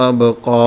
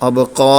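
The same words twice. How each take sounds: No difference in how they are said.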